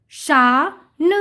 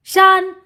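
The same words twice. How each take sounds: First: शा drawn out, then a separate न; sounding out. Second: Said in the usual way. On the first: Shown as a demonstration. Teacher reading to children, sound by sound. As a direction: split it slowly: शा... न. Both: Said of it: "उच्चारण करके पढ़ लिया".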